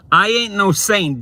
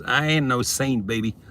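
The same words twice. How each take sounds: First: Loud, high, emphatic denial; emphatic declaration. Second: Said in the usual way. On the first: Real, not acted. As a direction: belt out the denial. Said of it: "repeat louder". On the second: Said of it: "repeat follows".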